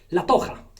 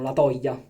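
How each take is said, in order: First: The middle consonant is a rough throaty h. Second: The middle consonant is a palatal l sound. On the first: This is how it is said in Spain. "la J si pronuncia H, come se stai a scatarrà" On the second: This is how some people say it. "dicono la toglia"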